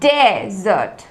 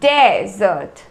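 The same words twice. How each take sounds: First: The stress is on the first syllable. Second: The stress is on the first syllable.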